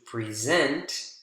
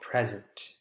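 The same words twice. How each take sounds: First: The stress is on the second syllable. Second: The stress is on the first syllable. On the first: It is a verb meaning to give. "second syllable is the strongest in verbs" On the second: It is a noun meaning a gift. "first syllable is the strongest in nouns"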